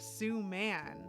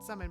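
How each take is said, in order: First: The first syllable sounds like 'sue'. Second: The first syllable sounds like 'sum'. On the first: This is how other people say the name. The speaker calls it wrong. "people always just insist on calling her Sue Man" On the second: This is how the friend says her own name. The speaker calls it right. "it's pronounced like the word summon"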